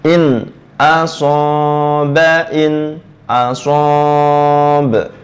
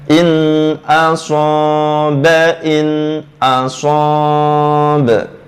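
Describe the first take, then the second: No difference in how they are said.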